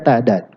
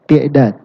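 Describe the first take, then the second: First: The first syllable has an a vowel. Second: The first syllable has an i vowel. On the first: The speaker calls it right. "Harusnya dibaca ta'dad" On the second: The speaker calls it wrong. "Dia baca pakai kasrah, dia baca ti'dad"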